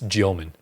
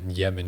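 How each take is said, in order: First: The first vowel sounds like 'yo'. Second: The first vowel sounds like 'eh'. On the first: The speaker calls it right. "it's Yeoman. Because he's got the on the E. There's like two dots above" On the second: The speaker calls it wrong.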